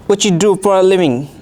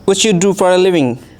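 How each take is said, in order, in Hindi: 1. पहला 'do' छोटा होकर दूसरे शब्दों में घुल जाता है। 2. पहला 'do' छोटा होकर दूसरे शब्दों में घुल जाता है।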